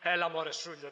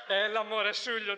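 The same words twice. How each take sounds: First: Said in the usual way. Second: Louder, insistent "Έλα, μωρέ" to calm him; louder, pleading "Έλα, μωρέ, Σούλιο"; firmer brush-off. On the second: Retold or imitated. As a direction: push back harder on the same words. Repeated more forcefully.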